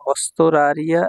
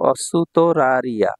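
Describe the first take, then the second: First: অস্তরারিয়া with "st" run together, no u between; অস্তরারিয়া as spoken, the u after s dropped; common spoken pronunciation. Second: অসুতরারিয়া slowly, with a full "su" before "to"; slow teaching model of অসুতরারিয়া, "su-to" kept separate; correct pronunciation. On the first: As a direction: say অস্তরারিয়া joining s straight onto t. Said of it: "এভাবেই উচ্চারণ করা হয়". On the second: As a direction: sound out অসুতরারিয়া, keeping the u after s. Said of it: "সঠিক উচ্চারণ হচ্ছে". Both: Shown as a demonstration.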